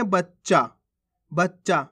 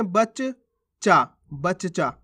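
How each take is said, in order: First: बच्चा as bach-chaa, joined; half-letter pronunciation. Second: बच्चा broken slowly, bach, chaa; full-letter pronunciation. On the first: Teacher shows how we read it, बच्चा with half च. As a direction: hold the doubled च in बच्चा. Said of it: "इसको कैसे पढ़ेंगे". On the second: Teacher writes it out, बच्चा with both च apart. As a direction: sound each च separately in बच्चा. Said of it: "ये तो पूरा हो गया". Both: Shown as a demonstration.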